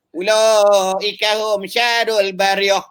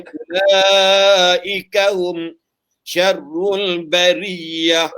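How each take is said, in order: First: "Ulaika hum syarul bariyah" drawn out, higher, Kedah vowels; Kedah-style mispronounced recitation. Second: "Ulaika hum syarrul bariyah" very slow, with doubled r in syarrul; corrected recitation. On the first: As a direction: slowly misread "bariyah" in high-pitched Kedah recitation. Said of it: "Patutnya bariyah". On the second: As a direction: recite "syarrul bariyah" properly, every syllable stretched out. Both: Shown as a demonstration.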